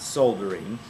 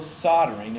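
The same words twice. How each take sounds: First: The word is said with an L sound. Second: The word is said without an L sound. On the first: The speaker calls it wrong. "It's not soldering" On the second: The speaker calls it right. "we don't say the L"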